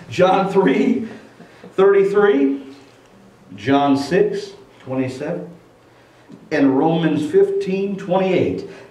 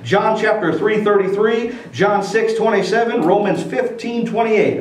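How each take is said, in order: First: The references are said slowly. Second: The references are said fast.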